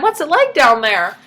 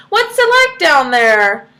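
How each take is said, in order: First: Calling out. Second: Louder, slow call down a hole. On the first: Retold or imitated. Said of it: "the husband's like". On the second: Acted. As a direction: call down into the dark. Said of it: "he called out".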